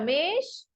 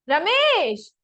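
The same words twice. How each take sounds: First: The name is called at normal, quiet loudness. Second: The name is called louder still, most intensely.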